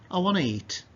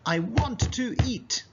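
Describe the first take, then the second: First: The words run together in relaxed speech. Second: Each word is said separately and carefully. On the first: The speaker calls it right. "more naturally you would say" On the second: The speaker calls it wrong. "Children usually speak like this"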